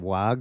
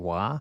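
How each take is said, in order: First: The word ends with a hard g sound. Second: The word ends on an open vowel. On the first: The speaker calls it wrong. "I always used to say Wag when I didn't know what it was" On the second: The speaker calls it right. "it was actually Wa"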